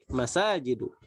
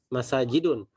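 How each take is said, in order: First: The word ends on a plain vowel. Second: The word ends with an added n sound. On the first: The speaker calls it right. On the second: The speaker calls it wrong. "tidak boleh kita katakan"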